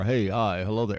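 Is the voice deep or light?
deep. It is said in a deep voice.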